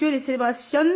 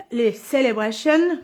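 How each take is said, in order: First: Said in the usual way. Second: French speaker attempting an English accent. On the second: Shown as a demonstration. (accent anglais) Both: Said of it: "avec mon accent anglais".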